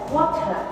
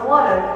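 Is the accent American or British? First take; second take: British; American. First: It is said in a British accent. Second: It is said in an American accent. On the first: "no inglês britânico eles falam" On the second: "No inglês americano eles falam"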